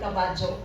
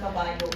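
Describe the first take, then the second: First: The middle consonant is a j sound. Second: The middle consonant is a plain y sound. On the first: This is how it is said in Bohol. "kung ang Y is in between the word, we pronounce it ja" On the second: This is how it is said in Cebu. "sabi ng taga Cebu, sa Bohol daw walang kabayo"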